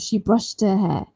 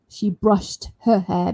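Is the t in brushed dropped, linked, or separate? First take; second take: dropped; separate. First: The t sound is left out entirely. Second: Each word is said clearly and separately. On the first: "If you want to be fast, you might even omit the sound" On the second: "If you want to say nice and clear one by one"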